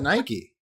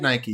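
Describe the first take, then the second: First: Nike as one syllable, rhyming with bike; British pronunciation. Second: Nike as NY-kee, two syllables; American pronunciation. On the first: Retold or imitated. American mocks the British version, Nike rhyming with bike. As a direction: say Nike without the final ee. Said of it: "You call it Nike". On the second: Shown as a demonstration. American claims the brand, saying it with a final ee. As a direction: say Nike to rhyme with spiky. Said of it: "we in the United States invented".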